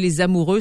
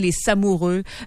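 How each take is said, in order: First: The liaison is made with a z sound. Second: The liaison is made with an s sound. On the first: The speaker calls it right. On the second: The speaker calls it wrong.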